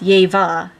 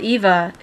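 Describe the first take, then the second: First: The name begins with a Y sound. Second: The name begins with a plain vowel sound. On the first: "you drop the E sound and add the Y E" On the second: "it's spelled Eva in um, English"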